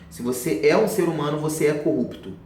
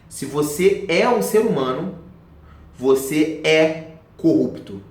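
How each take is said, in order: First: The sentence is spoken at a normal pace. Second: The sentence is spoken very slowly.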